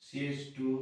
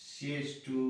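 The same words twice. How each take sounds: The two takes are said the same way.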